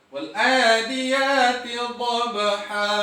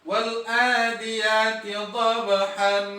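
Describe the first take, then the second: First: The last word ends with a long open vowel. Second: The last word ends with an n sound. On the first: The speaker calls it right. "Kalimat dhabhan menjadi bacaan dhabha" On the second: The speaker calls it wrong. "tetap dengan membuatnya fathatain"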